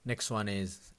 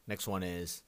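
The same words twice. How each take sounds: The two takes are said the same way.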